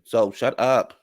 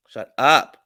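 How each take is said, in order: First: Said in the usual way. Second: Louder, punchier dismissal; emphatic repeat. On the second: Real, not acted. Recapper telling Mia off, louder emphatic shut up. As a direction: slam it shut, louder the second time.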